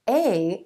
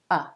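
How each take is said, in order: First: The vowel is full, like the letter name. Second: The vowel is reduced to a weak schwa. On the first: The word itself is being talked about. "The only time you would actually say a and an is if you're specifically talking about these words" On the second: It is used in connected conversational speech. "a and an will reduce. A becomes a"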